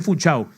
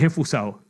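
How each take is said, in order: First: The word has a 'ch' sound before the end. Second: The word has an 's' sound before the end. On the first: The speaker calls it wrong. "No es enfunchao" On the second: The speaker calls it right. "es enfusao"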